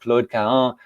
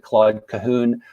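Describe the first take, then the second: First: The name is said with a French pronunciation. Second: The name is said with an American English pronunciation. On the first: "in French, it should be pronounced" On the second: "a lot of English speakers, especially in the United States, tend to pronounce it"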